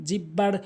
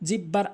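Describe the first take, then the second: No difference in how they are said.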